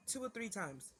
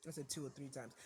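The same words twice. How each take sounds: First: Said in the usual way. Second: A low pointed correction; soft, pointed restatement; quiet insistence. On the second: Real, not acted. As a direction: repeat it much softer and lower, firm on I.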